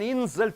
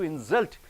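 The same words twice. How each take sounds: First: The stress is on the first syllable. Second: The stress is on the second syllable. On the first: It is a noun. "the nouns you are stressing on the first syllable" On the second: It is a verb. "for the verbs you are stressing on the end syllable"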